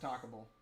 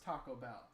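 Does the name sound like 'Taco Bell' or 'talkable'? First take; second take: talkable; Taco Bell. First: It is run together to sound like talkable. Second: It is said as the two words Taco Bell. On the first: The speaker calls it wrong. "I used to pronounce it Talkable" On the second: The speaker calls it right. "this is Taco Bell"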